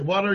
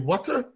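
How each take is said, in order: First: It is said with an American accent. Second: It is said with a British accent. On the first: "We Americans say water" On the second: "You British people say water"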